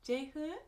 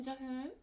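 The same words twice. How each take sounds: First: "Jehun" with an eh-like first syllable, questioning; unsure second guess. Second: "Jahun" with an ah in the first syllable; first pronunciation guess. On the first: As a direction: try the name as "Jehun?", checking if it's right. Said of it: "I'm not good at Korean". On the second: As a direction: try the name as "Jahun", open first vowel. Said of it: "How do you pronounce your name?". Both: Shown as a demonstration.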